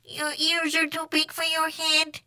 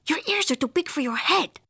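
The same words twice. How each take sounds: First: High monotone alien voice; Martian echo. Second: High, lively cartoon voice; bouncy pitch, as a cheeky remark; exclaiming kitty boy. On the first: Martian copying Skipito's remark, monotone echo. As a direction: parrot it on one high note, evenly. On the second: Skipito sizing up a Martian, exclaiming. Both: A narrator's reading.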